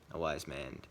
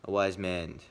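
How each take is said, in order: First: A wise man dropped low and softer; quieter repeat. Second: Said in the usual way. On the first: Shown as a demonstration. Vlogger musing on Iroh's wisdom, softly. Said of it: "sees the future". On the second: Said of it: "is always becoming wise".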